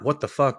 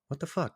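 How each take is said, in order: First: It sounds angry and aggressive. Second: It sounds alarmed and worried.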